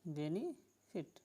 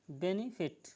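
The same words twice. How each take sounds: First: benefit slow and soft, weight on बे, फिट left light; slow stress demo. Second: Said in the usual way. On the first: Shown as a demonstration. Teacher to students, slowly showing the word's stress. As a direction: drawl benefit slowly, leaning on the first syllable. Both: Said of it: "इस पे जोर नहीं दिया गया".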